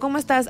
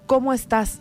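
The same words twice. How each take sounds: First: It is asked in a quick, routine way. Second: It is asked in a sincere, caring way.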